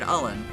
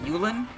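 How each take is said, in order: First: The name starts with a plain vowel sound. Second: The name starts with a 'y' sound. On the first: This is the speaker's own, funnier version. "I think I call it Ullen" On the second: This may be the official pronunciation. "might be the actual official pronunciation"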